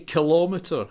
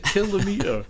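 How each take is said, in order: First: The stress is on the second syllable. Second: The stress is on the first syllable. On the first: The speaker calls it wrong. "They say kilometre" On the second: The speaker calls it right. "It's a kilometre. No one says millimetre or centimetre"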